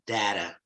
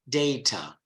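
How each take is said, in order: First: It is said with an American pronunciation. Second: It is said with a British pronunciation.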